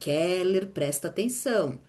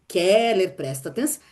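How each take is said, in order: First: The phrase is said at a normal, softer volume. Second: The phrase is said noticeably louder. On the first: A first, gentle warning is given. "Aí ela me chama" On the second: The warning is more insistent after being ignored. "Aí ela vai chamar um pouco mais alto"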